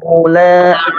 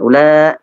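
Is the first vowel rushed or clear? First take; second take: clear; rushed. First: The first vowel is clear and complete. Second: The first vowel is rushed and short. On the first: The speaker calls it right. "tapi ula, u, jelas" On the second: The speaker calls it wrong. "Jangan ula ya, tidak seperti itu"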